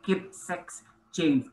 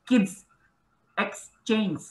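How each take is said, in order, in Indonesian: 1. Bunyi s menyambung kata berikutnya, sex. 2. Bunyi s menyambung kata pertama, kids. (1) "Bisa saja nanti konsumer membacanya" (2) "saya kasih contoh ya"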